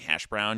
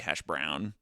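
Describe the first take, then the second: First: The emphasis falls on the usual part of the compound. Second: The emphasis falls on a different part of the compound. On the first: "instead of saying hash brown" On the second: "you put the emphasis on a different part"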